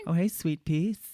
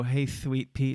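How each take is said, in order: First: "sweet piece" with an exaggerated sibilant S. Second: "sweet" lisped as "thweet". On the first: Imitating friends newly out of the closet, sharp sibilant S in "sweet piece". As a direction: linger on the S sounds in "sweet piece". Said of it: "They did not have the S". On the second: Shown as a demonstration. Mocking guys' bad impressions, "sweet" said as "thweet". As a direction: turn the S of "sweet" into a TH. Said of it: "like the T H sound".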